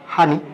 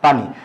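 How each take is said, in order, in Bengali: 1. শব্দটা h ধ্বনি দিয়ে শুরু হয়। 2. শব্দটা p ধ্বনি দিয়ে শুরু হয়। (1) "নোয়াখালীতে কি বলে?" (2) "ঢাকায় একটা শব্দ কি বলি?"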